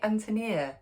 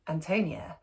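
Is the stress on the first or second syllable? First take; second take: first; second. First: The stress is on the first syllable. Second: The stress is on the second syllable. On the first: The speaker calls it right. "of course she was right... strongly accented on the first syllable, like the English name Anthony" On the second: The speaker calls it wrong. "And I was like"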